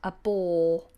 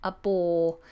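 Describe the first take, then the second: No difference in how they are said.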